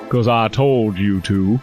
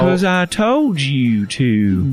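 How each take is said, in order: First: It is delivered in a milder character voice. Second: It is delivered with more force and feeling.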